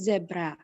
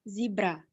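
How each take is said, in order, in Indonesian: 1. Diucapkan dengan aksen Australia. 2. Diucapkan dengan aksen Amerika. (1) "Australia itu zebra, sama kayak di Inggris" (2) "kalau di U S A itu zebra"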